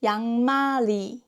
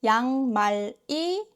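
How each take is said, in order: First: 양말이 joined as yang-ma-ri; linked pronunciation. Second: 양말이 split as yang, mal, i; unlinked syllables. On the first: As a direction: flow the ㄹ of 양말이 into the last vowel. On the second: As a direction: keep the final ㄹ of 양말이 apart from the last vowel. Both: Shown as a demonstration. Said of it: "becomes 양말이".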